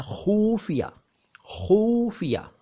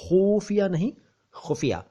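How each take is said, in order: First: खुफिया drawn out with long uu; mock the news-channel खुफिया; wrong pronunciation. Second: खुफिया with short u and throaty ख़; correct pronunciation. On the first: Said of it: "ये उच्चारण बिल्कुल ठीक नहीं है". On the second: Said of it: "छोटा ऊ की मात्रा होनी चाहिए". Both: Shown as a demonstration.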